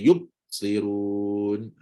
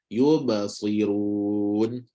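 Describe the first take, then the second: First: The word is broken with a pause after yub. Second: The word is said smoothly without a break. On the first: The speaker calls it wrong. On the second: The speaker calls it right.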